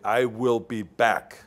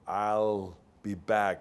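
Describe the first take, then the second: First: The word will is said in full. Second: The word will is contracted to I'll. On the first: The line sounds strong. The speaker calls it right. "I say, I will be back" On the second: The line sounds weak. The speaker calls it wrong. "this sounds weak"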